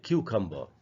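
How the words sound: The final r sound is dropped. This is the British pronunciation. "लेकिन British में पढ़ेंगे"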